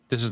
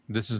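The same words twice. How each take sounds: First: The voice has a clean processed sound. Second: The voice has a warm processed sound. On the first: "This is the clean setting" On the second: "This is the warm setting"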